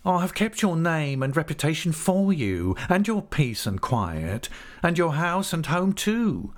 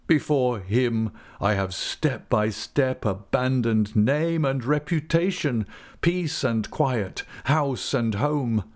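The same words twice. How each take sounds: First: High-pitched sulky character voice; grudging compromise in a raised whine; sulky, defeated. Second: Slow, measured lament, pitched higher; ruined man accusing his tormentor; anguished father. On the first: A narrator's reading. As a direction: retort sullenly, giving ground. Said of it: "with a sulky, hurried, defeated air of compromise". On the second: Acted. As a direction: list each loss slowly and bitterly. Narrator voices Wickfield's bitter lament.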